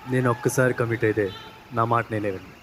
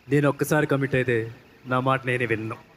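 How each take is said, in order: First: It is said softly and slowly. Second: It is said forcefully with more energy.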